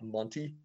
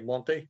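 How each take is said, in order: First: The name ends like Monty in Monty Python. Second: The name ends unlike Monty in Monty Python. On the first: The speaker calls it wrong. "and not Monty. So, like Monty Python" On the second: The speaker calls it right. "she still reminds me to say Monte"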